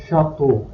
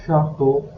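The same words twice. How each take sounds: The two takes are said the same way.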